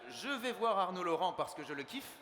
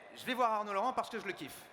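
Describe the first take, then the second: First: The vowel of each 'je' is fully pronounced. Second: The vowel of each 'je' is dropped. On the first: "à la place de" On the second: "je dirais"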